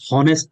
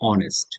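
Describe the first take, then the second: First: The word begins with an h sound. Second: The word begins directly with a vowel sound. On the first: The speaker calls it wrong. "হনেস্ট না।" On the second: The speaker calls it right. "এটা হচ্ছে অয়ের উচ্চারণ।"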